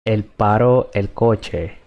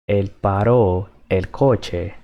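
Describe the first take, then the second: First: Said in the usual way. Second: Él paró el coche said slowly, every word clear; slow teaching repeat. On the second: Shown as a demonstration.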